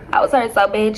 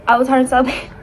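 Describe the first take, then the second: First: Said in the usual way. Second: Laughing. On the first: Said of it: "repeat without laugh". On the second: Real, not acted.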